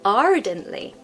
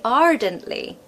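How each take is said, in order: First: The R sound is pronounced after the first vowel. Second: The R sound is pronounced after the first vowel.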